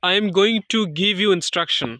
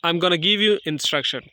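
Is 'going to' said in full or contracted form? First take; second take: full; contracted. First: Going to is said as two full words. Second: Going to is run together as gonna. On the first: "like" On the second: "গোয়িং টুকে আমরা গনা বলতে পারি"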